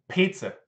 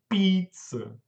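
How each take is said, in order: First: The first p has a puff of air. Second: The first p has no puff of air. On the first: The speaker calls it right. "O P, ele tem sopro" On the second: The speaker calls it wrong. "não é pizza"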